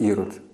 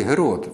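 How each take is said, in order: First: The name begins with a vowel sound. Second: The name begins with a soft breathy h-sound. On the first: This is the form that came through Russian. The speaker calls it wrong. "у них немає цього придихового «г» м'якого. Ну, у них виходить «ірод»" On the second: This is the original form of the name. The speaker calls it right. "А насправді «герод»"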